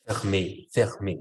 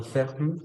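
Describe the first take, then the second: First: "fermé" ending in a clear é like Spanish e; "fermé" with the last syllable sounded, fer-MÉ; "fermé" with the accented é pronounced fully; accented final e. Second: "ferme" with a silent final e, said as FERM; "ferme" ending flat on the r, no final vowel sound; "ferme" as the wrong version, final e dropped. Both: Shown as a demonstration. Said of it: "no ferme, sino".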